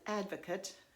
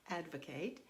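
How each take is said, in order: First: It is said with the noun pronunciation. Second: It is said with the verb pronunciation. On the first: It names a person who supports something. "If I pronounce it advocate, it is a noun" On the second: It means to push for or support something. "you'll hear the inflection differently in the word when it's said this way"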